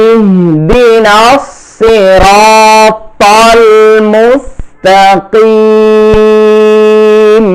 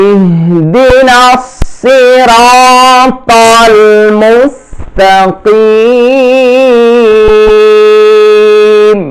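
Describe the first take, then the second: The two takes are said the same way.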